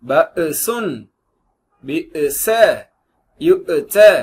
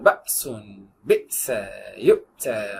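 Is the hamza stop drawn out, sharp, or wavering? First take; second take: wavering; sharp. First: The hamza stop wavers with too much movement. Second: The hamza is a short, sharp jerking stop. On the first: The speaker calls it wrong. "அது ரொம்ப அசைச்சு" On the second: The speaker calls it right. "ஷார்ப்பான சொல்ல"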